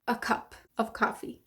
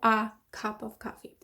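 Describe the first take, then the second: First: The word 'a' is a reduced schwa. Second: The word 'a' has a full vowel. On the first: The speaker calls it right. "that A is a schwa sound. So you'd say" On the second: The speaker calls it wrong. "So you wouldn't say"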